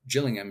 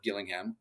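First: The name is said the way people in the UK say it. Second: The name is said the speaker's own, non-UK way.

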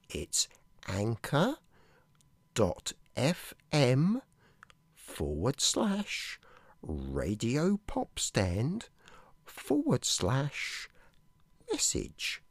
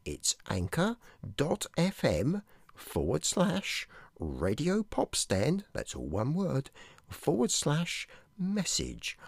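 First: It is said slowly. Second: It is said at normal speed.

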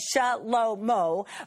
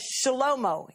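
First: The syllables are said separately. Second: The syllables run together.

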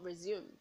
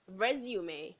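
First: The final e is silent. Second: The final e is sounded like 'ay'. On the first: The speaker calls it wrong. "not resume" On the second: The speaker calls it right. "resume, not resume"

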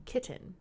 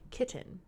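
First: The middle T sound is clearly pronounced. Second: The middle T sound is clearly pronounced.

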